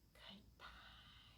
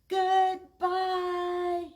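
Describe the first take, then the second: First: It is said very softly. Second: It is said very loudly.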